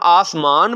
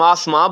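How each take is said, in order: First: The word ends with a full n consonant. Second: The word ends with only a nasal vowel. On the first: The word is heavier in the meter. "अगर हम आसमान बोलें तो उसका वजन ज्यादा होता है" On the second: The final n adds no weight to the meter. "आखिर में जो नून गुन्ना खाली आ रहा है"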